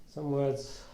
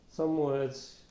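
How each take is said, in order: No difference in how they are said.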